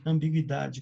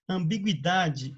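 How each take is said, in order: First: Said in the usual way. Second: "Ambiguidade" said slowly, syllable by syllable; slow careful pronunciation. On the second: Shown as a demonstration. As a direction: stretch out "Ambiguidade" so each syllable is heard. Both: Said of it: "Perceba que a pronúncia não mudou?".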